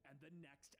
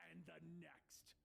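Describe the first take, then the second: First: Said in the usual way. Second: "and the next" slow and deliberate; weighty, drawn-out "and the next"; emphatic final repeat. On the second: A narrator's reading. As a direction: stretch "and the next" word by word. Narrator builds a repeated list.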